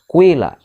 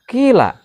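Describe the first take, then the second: First: The first vowel blends u into i. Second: The first vowel is a front i sound. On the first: "ismam mencampurkan harkat domah dengan kasrah" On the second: "bisa dibaca kila"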